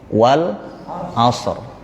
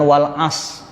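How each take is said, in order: First: The word ends with an audible r sound. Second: The word ends without any r sound. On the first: The speaker calls it right. "ada bunyi er-nya" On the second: The speaker calls it wrong. "Kalau wal as berarti kita membuang huruf ra"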